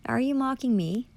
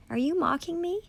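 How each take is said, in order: First: Said in the usual way. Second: Shrill-rising accusing question; indignant high challenge. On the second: Real, not acted. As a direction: pitch jumps way up on the last try. Repeats question angrily at officials.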